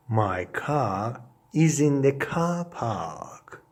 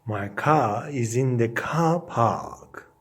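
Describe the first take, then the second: No difference in how they are said.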